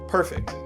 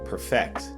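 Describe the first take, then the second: First: The stress is on the first syllable. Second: The stress is on the second syllable. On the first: It is used as an adjective. "When you put stress in the beginning, you're using it as an adjective" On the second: It is used as a verb. "When you put stress at the end, you're using it as a verb"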